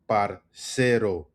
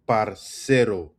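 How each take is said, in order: Both takes have the same delivery.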